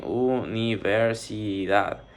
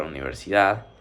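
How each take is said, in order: First: "universidad" slowly, syllable by syllable; dividido em sílabas. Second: Said in the usual way. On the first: Shown as a demonstration. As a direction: break "universidad" into u, ni, ver, si, dad. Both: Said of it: "Se divide en".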